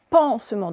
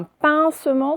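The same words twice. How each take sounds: First: "pansement" with a nasal "an" sound; "pansement" with first vowel "en", not "in"; correct vowel. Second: "pincement" with a nasal "in" as in pain; "pincement" said as the mistaken version, first vowel stressed; wrong vowel. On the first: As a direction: lean on the open "an" in "pansement". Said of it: "c'est avec le son en et non pas le son un". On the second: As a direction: lean on the "in" sound in "pincement". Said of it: "c'est avec le son en". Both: Shown as a demonstration.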